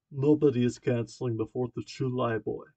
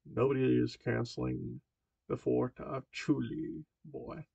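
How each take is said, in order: First: A hint of a Slavic accent, louder; grandfather's light Slavic accent; heavy Slavic accent. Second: Said in the usual way. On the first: A narrator's reading. Grandfather speaking to Marty, light Slavic accent. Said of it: "he says in his heavy Slavic accent". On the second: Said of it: "let me retry that again".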